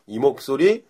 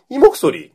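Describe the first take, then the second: First: Said in the usual way. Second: High, loud, worked-up demo; excited voice. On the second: Shown as a demonstration. Host showing listeners how he sounds worked up, excited. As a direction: jump up into an excited voice. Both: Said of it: "좀 흥분하면 이 목소리".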